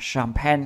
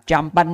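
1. Nó bắt đầu bằng âm 'sh'. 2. Nó bắt đầu bằng âm 'ch'. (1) "Tóm lại, nó là âm S nè" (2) "bạn không đọc là champagne nha"

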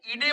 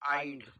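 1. हा 'ee-deh' असा ऐकू येतो, दोन अक्षरे. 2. हा 'eyed' असा ऐकू येतो, एकच अक्षर. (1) "याला इडे म्हणू नका" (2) "याचा उच्चार होतो आईड"

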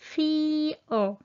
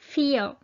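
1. Từ này được nói chậm và kéo dài. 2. Từ này được nói nhanh và dứt khoát. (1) "Nếu mà phát âm chậm á, thì các bạn nghe như vậy" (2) "Còn phát âm nhanh thì nghe này"

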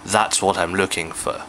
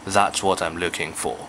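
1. 'for' 这个词读的是弱化元音。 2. 'for' 这个词读的是完整元音。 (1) "就唔會讀成咧……好古怪嘅" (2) "當佢句子尾嘅時候，我就會讀翻佢原本嗰個for"

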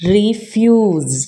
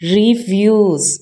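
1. ഈ വാക്ക് നീണ്ട 'ree' ശബ്ദത്തിൽ തുടങ്ങുന്നു. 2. ഈ വാക്ക് നീണ്ട 'ree' ശബ്ദത്തിൽ തുടങ്ങുന്നു.

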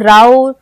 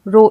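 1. स्वर का उच्चारण 'ow' जैसा होता है। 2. स्वर का उच्चारण 'oh' जैसा होता है। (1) "ये नहीं पढ़ेंगे" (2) "हमें ओ का उच्चारण मिलेगा"

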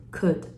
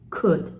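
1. could は喉の音を使って発音されています。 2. could は喉の音を使って発音されています。

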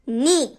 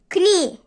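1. Kelime N sesiyle başlar. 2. Kelime sesli bir K sesiyle başlar. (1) "K'yi okumuyoruz" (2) "Kni değil"

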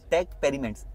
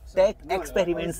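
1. दूसरे शब्द से 'ex' की आवाज़ छोड़ दी जाती है। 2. दूसरा शब्द साफ़ 'ex' की आवाज़ से शुरू होता है। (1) "एक्स साइलेंट है" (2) "टेक एक्सपेरिमेंट्स नहीं है"

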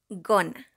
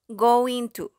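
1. Las palabras se juntan en una sola palabra corta. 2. Ambas palabras se dicen completas y por separado.

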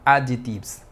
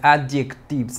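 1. La 'c' del medio se omite. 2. La 'c' del medio se pronuncia. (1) "no se pronuncia la letra C" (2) "No es adjectives"

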